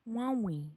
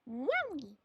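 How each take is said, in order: First: It is said in a robotic computer voice. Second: It is said in a natural voice.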